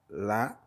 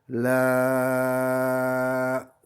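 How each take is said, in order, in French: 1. La voyelle est tenue un temps. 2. La voyelle est tenue six temps.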